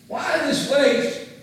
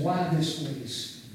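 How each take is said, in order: First: High, loud, slow complaint; indignant outburst. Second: Said in the usual way. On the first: Retold or imitated. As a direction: protest the waste in outrage. Disciples complain, repeated louder.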